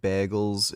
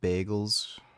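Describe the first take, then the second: First: The word is said with a Canadian-sounding vowel. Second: The word is said with a standard vowel. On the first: Someone else said it this way. "he's Canadian. He said bagels" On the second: This is the usual way to say it. "instead of bagels"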